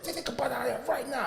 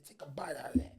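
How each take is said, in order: First: Higher-pitched imitation of an impatient dad; retold insistent order. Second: Low, whispered imitation of a furious dad; hushed threat. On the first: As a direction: stammer into a firm repeated command. Father repeats order more insistently. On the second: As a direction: order it under your breath, menacingly. Shaking father threatens with soap.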